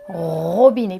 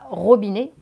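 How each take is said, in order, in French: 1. Le premier son r est long et accentué. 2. Le premier son r est court et net. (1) "je dis bien robinet pour bien entendre le son" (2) "Je ne dis pas robinet"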